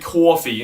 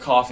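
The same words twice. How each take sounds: First: Coffee is said in an old aunt accent. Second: Coffee is said in a plain, ordinary accent.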